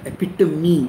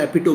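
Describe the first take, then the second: First: The word ends in two syllables, 'tuh-mee'. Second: The word ends in one syllable rhyming with home. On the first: The speaker calls it right. "एपिटमी होता है" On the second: The speaker calls it wrong. "एपिटोम नहीं होता"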